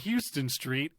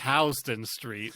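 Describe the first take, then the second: First: It is said the way outsiders say it. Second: It is said the way New Yorkers say it. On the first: The speaker calls it wrong. "in New York, it's not Houston Street" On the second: The speaker calls it right. "it's Houston Street"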